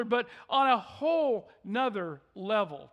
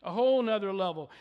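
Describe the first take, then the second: First: Said in the usual way. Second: Whole nother level, faster and pushed, weight on "whole"; stress on whole. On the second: Real, not acted. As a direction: punch "whole" in the repeat. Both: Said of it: "repeated for emphasis".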